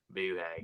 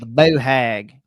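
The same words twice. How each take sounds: First: Southern drawl. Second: Slow, drawn-out southern boo hag; southern flair, slow and drawn out; southern accent. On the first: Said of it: "say it with that southern, southern flair". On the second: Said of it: "we're saying it with a southern accent". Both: Shown as a demonstration.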